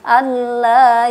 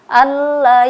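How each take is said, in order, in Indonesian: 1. Vokal setelah l itu panjang. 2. Vokal setelah l itu pendek.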